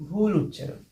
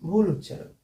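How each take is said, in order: No difference in how they are said.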